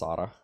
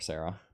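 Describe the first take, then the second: First: The name is said with its native pronunciation. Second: The name is said with an anglicized pronunciation. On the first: This is how her name is truly said. "My poor wife's name is actually pronounced Sada" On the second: This is the English-speaking adaptation of her name.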